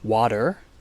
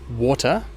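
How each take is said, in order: First: A flapped T and an R at the end. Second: A strong T and no R at the end. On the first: "In America, they would pronounce it as water, so with a flap T and with an R at the end" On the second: "In Britain, they'd pronounce it as water, with a strong T and no R at the end"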